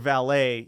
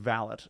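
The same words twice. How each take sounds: First: The final T is silent. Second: The final T is clearly sounded. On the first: This is the French way of saying it. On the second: This is how people in the UK say it.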